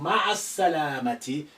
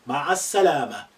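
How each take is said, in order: First: The last word ends with a 'ti' syllable. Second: The last word ends in an open 'ah'.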